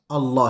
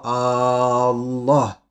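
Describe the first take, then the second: First: The first vowel is short. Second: The first vowel is drawn out long. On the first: The speaker calls it right. "c'est Allah" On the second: The speaker calls it wrong. "non pas Allah"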